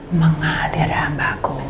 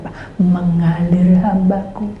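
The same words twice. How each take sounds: First: Slow, voiceless and soft; slow whisper. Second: Slow calm reply. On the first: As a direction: breathe it out gently. God's reply voiced. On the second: God's calm reply voiced. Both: Retold or imitated.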